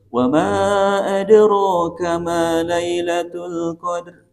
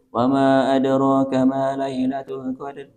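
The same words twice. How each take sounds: First: The line is read with a questioning intonation. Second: The line is read in a flat, level tone. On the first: The speaker calls it right. "jadi pertanyaan di situ" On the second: The speaker calls it wrong. "Itu lurus, Pak. ... Lurus"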